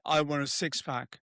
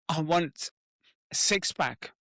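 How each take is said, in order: First: It is said flatly with no emotion. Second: It is said hesitantly, as if afraid. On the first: The speaker does not really care. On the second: The speaker feels resistance to the goal. "When you're almost like afraid to say it"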